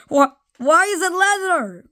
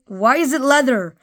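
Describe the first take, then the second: First: High, disbelieving whine; exasperated disbelief. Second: Said in the usual way. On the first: Acted. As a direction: throw up your hands in disbelief. Exaggerated baffled repeat.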